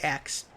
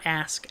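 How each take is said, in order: First: The word ends with a 'ks' sound. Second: The word ends with an 's' then 'k' sound. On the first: "I did say ax" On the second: "not ask"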